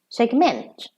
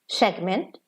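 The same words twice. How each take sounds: First: The stress is on the last syllable. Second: The stress is on the first syllable. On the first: It is used as a verb. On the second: It is used as a noun.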